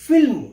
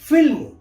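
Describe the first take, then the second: No difference in how they are said.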